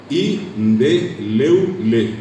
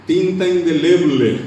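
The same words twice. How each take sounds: First: "Indeleble" very slow in syllables, like "i-nde-leu-le"; broken BL cluster. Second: "indeleble" slow and louder, with BL intact; full BL cluster. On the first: Showing there are no double consonants, drawn-out "Indeleble" as "indeleule". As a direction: split "Indeleble" so B turns into U before L. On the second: Giving students the standard example, slow loud "indeleble" with BL. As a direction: announce "indeleble" slowly with a clear BL. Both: Shown as a demonstration. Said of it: "No hay dobles consonantes".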